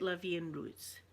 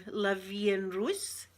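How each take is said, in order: First: Said in the usual way. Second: "la vie en rose" sounded out slowly, rising on "rose"; careful French attempt. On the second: Shown as a demonstration. Streamer tests her French on viewers, slow, questioning "la vie en rose". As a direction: draw out "la vie en rose" as if checking it. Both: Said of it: "Am I saying that correct?".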